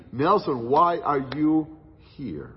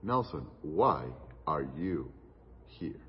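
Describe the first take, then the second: First: Louder, slowed question with a drop on "here"; the preacher calls out "Nelson, why are you here?" louder, then drops on "here"; pressing the question home, louder; emphatic. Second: Low, soft and grave, slowed down; a friend asking a hard question in a serious hush. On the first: Climax, God's question recalled. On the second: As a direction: ask it gravely and quietly, weighing each word. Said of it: "in a very serious tone". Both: Retold or imitated.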